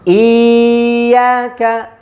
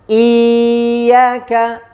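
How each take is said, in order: First: The y sound is drawn out long. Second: The y sound is drawn out long.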